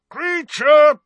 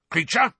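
First: Much louder, higher full bellow of the name. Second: Loud, high call of the name. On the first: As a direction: bellow for the elf at the top of your lungs. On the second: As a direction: call the elf across the house. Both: A narrator's reading. Calling the elf twice.

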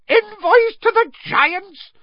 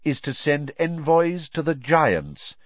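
First: Much higher, louder, slow disbelieving shriek of envoys. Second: Said in the usual way. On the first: A narrator's reading. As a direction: shriek the words back in horror. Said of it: "Fudge shrieked". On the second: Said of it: "Dumbledore pressed on".

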